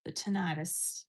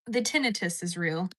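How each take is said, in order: First: Tinnitus as tuh-NYE-tus, said slowly; long i pronunciation. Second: Tinnitus as TIN-uh-tus; stress on first syllable. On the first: Streamer trying the word again, tinnitus as tuh-NYE-tus. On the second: Streamer reading out a chat comment, tinnitus as TIN-uh-tus. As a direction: say tinnitus with a short i, stress up front. Reads word, then says it differently. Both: Shown as a demonstration.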